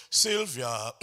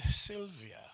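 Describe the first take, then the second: First: "Sylvia" pushed out loud with wrong weight; wrong stress. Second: Said in the usual way. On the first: Shown as a demonstration. Director imitating a choir singing "Sylvia" with the wrong stress. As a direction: hit "Sylvia" too hard, the way choirs do. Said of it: "But the word itself is Sylvia". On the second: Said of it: "the word itself is Sylvia".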